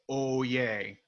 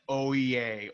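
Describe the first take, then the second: First: The final vowel is one steady, pure sound. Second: The final vowel glides between two sounds. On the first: The speaker calls it right. "using that one clean vowel sound" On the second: The speaker calls it wrong. "rather than"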